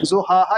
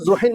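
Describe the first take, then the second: First: The word ends with a long 'a' sound. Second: The word ends with an 'in' sound. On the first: The speaker calls it right. "ज़ुहाहा ही पढ़ना है आपको" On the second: The speaker calls it wrong. "आप इसको ज़ुहिन नहीं पढ़ सकते"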